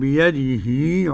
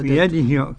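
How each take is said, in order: First: The final i vowel is lengthened into long i. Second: The final i vowel is short, not lengthened.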